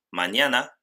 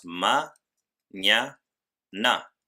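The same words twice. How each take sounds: First: Said in the usual way. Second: "ma, ña, na" in three separate pieces; split into syllables. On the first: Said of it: "En el siguiente ejemplo". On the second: Shown as a demonstration. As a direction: pause after each syllable of "ma, ña, na". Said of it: "tres sílabas". ("ma, ña, na" sílaba por sílaba, con pausas)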